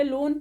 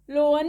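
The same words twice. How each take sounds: First: "लोन" as one straight syllable, lone; correct silent A. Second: "लोन" split as lo-an, louder; wrong sounded A. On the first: Teacher showing the straight reading, correct silent A. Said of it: "लोन पढ़ते हम सीधे". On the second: Teacher showing what not to say, wrong sounded A. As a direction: sound the A in "लोन" as a second syllable. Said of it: "लोन नहीं पढ़ते". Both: Shown as a demonstration.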